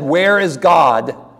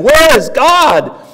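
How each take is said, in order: First: It is said at a moderate volume. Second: It is said in a raised, shouting voice.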